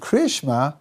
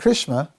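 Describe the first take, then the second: First: Two words are said fully and separately. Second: The words are blended into one short word. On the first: The speaker calls it right. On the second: The speaker calls it wrong.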